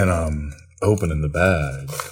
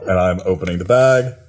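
First: It is said in a sultry, seductive voice. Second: It is said in a plain, normal voice.

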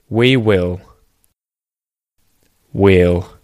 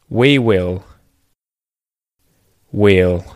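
Both takes have the same delivery.

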